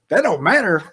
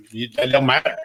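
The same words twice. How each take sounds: First: "That don't matter" thrown back higher, in disbelief; indignant echo. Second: "that don't matter" in a lightly put-on, offhand staff voice; mock dismissive staffer. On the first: Retold or imitated. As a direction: repeat "That don't matter" as an outraged echo, pitched up. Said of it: "I'm like". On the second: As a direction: brush him off, half-voiced. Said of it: "And you go".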